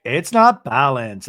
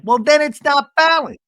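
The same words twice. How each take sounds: First: "not balanced" said slowly at usual pitch, with weight on "not"; slow, firm retort stressing "not"; measured retort. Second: "then it's not balanced" yelled high and loud; high, loud imitation of an exasperated comeback, punching "then"; exasperated mock yell. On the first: Retold or imitated. Lisa's retort, before Seth's comeback. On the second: Acting out Seth's exasperated comeback.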